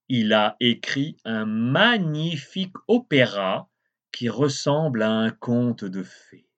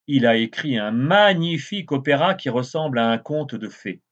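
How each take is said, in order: First: It is read at a slower pace. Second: It is read at a faster pace.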